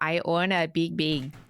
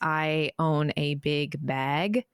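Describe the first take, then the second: First: Regional accent, with bag sounding like big. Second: Standard accent, with a clear bag vowel. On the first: "it would come out" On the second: "they'd have me say the sentence"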